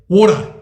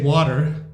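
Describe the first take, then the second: First: It is said in an Australian accent. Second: It is said in an American accent. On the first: "the Australians say water" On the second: "the Americans say water"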